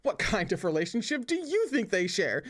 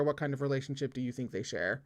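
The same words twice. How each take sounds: First: Higher, mocking echo of the question; eye-rolling scorn. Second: Said in the usual way. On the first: A narrator's reading. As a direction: throw the question back, leaning on "you". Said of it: "Shui Meng would definitely roll his eyes".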